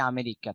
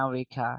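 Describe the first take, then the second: First: Said in the usual way. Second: আমেরিকা as "mea-ri-kha", first vowel swallowed; British pronunciation. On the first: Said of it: "আমরা বলি আমেরিকা". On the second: Shown as a demonstration. Teacher showing how the British say it, "mea-rikha". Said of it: "ব্রিটিশরা বলে".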